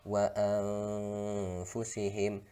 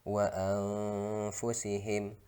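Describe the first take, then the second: The two takes are said the same way.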